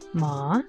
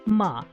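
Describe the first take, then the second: First: The pitch rises from mid to high. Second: The pitch falls sharply from high to low. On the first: "the second tone, which is a rising tone" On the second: "a fourth tone, which is a, a falling tone"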